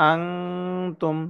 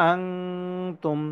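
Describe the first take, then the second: The two takes are said the same way.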